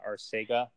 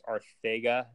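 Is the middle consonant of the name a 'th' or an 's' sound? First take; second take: s; th. First: The middle consonant is an 's' sound. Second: The middle consonant is a 'th' sound. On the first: The speaker calls it wrong. "not Arcega" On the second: The speaker calls it right. "Did you know that that's how you pronounce it? It's Arthega"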